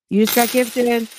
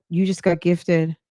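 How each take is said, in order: First: Higher, showy gift announcement; hyped announcement. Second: Said in the usual way. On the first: Shown as a demonstration. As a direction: sell it like a hype host. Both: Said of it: "repeats with flair".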